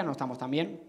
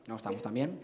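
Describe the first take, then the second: First: Said in the usual way. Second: Much lower, hushed repeat; low aside. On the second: Real, not acted. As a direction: drop the voice to a quiet admission.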